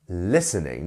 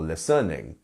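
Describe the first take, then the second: First: The stress is on the first syllable. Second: The stress is on a later syllable. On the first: The speaker calls it right. "It's on the first one" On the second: The speaker calls it wrong. "not listening or listening"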